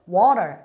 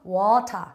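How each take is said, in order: First: The t is flapped and the r is rolled. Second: A clear t and no rolled r. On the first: "이렇게 굴리게 되고요" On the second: "털을 굴리지 않고요. 영국이나 호주 발음은"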